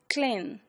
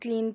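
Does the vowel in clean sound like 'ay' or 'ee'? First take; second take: ay; ee. First: The vowel is an 'ay' sound, as in lane. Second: The vowel is an 'ee' sound, as in lean. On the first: This is the older, Shakespearean pronunciation. "used to be pronounced as clean. As we pronounce a sound in lane" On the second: This is the present-day pronunciation. "that we pronounce as clean today"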